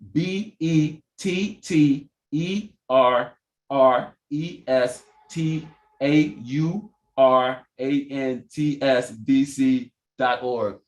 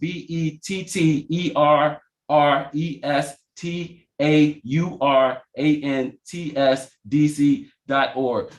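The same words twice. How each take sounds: First: It is spelled a little more slowly. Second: It is spelled at a normal pace.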